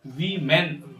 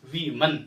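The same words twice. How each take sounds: First: "वीमेन" as "vee-men"; slow "वीमेन" ending in "men"; wrong pronunciation. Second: "वीमन" as "vee-mun"; correct pronunciation. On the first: Teacher showing what to avoid, "वीमेन" as "vee-men". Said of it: "वीमेन नहीं". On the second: Teacher correcting it, "वीमन" as "vee-mun". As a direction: schwa in the end of "वीमन". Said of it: "मैन नहीं". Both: Shown as a demonstration.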